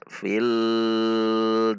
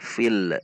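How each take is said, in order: First: The l sound is stretched out too long. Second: The l sound bounces off with an echo. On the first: "Atau dipanjangkan, tidak boleh juga" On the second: "memantul, tidak boleh"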